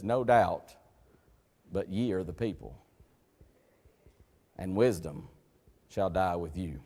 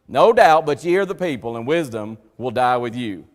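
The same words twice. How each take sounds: First: Low, soft, dry reading of the verse; understated sarcastic scripture reading; quiet sarcasm. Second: Preacher booming Job's sarcastic retort; loud sarcasm. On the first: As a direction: let the sarcasm sit quietly under the words. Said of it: "that's what we call in English sarcasm". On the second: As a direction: throw the sarcasm out at full voice. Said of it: "That's sarcasm to the nth degree". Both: Retold or imitated.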